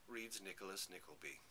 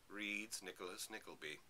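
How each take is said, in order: Both takes have the same delivery.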